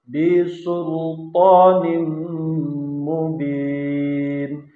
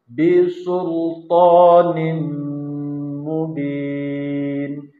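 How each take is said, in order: No difference in how they are said.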